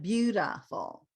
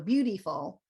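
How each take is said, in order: First: The middle vowel is a reduced schwa sound. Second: The middle vowel is a clear 'ee' sound. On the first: The speaker calls it right. "this is schwa" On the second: The speaker calls it wrong. "the I is pronounced as E, right? You say E"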